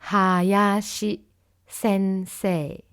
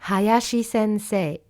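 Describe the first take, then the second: First: The phrase is said slowly and calmly. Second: The phrase is said a little faster. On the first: "si on répète euh, tranquillement avec moi" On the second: "Et un peu plus rapidement cette fois"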